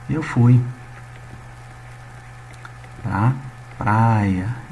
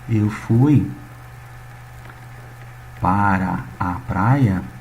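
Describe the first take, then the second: First: The preposition is shortened to one syllable. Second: The preposition is said in full as two syllables. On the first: This is the everyday colloquial way people speak. "a gente fala assim" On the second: This is the careful written form few people use in speech. "Muitos não falam desse jeito"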